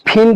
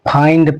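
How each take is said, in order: First: The vowel is a short 'i' sound. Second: The vowel is a long 'eye' sound. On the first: The speaker calls it wrong. "फिंड नहीं पढ़ना है" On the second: The speaker calls it right. "इस आई को हम आई की तरह पढ़ेंगे"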